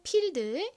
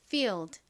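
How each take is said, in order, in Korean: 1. 한국식 p 소리에 가깝게 시작해요. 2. 영어식 f 소리를 세게 내며 시작해요. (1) "한국식으로는" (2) "하지만 실제 발음은"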